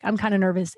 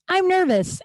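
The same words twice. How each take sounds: First: Said in the usual way. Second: High, blurted "I'm nervous"; blurted confession. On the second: Retold or imitated. Comic admitting nerves to a coworker, much higher.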